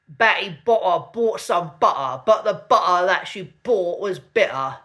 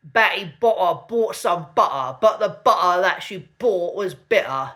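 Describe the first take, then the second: First: The t sounds are replaced by glottal stops. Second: The same.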